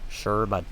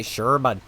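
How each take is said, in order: First: Canadian accent demo, again. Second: Canadian accent demo. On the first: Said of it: "Just like that". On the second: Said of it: "It's just fun to say". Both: Shown as a demonstration.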